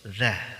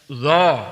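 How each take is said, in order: First: The consonant is pronounced thin with spread lips. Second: The consonant is pronounced thick and heavy. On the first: The speaker calls it right. "Cukup senyum za" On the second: The speaker calls it wrong. "Jadi jangan dibaca za, za, gitu ya, itu tebal"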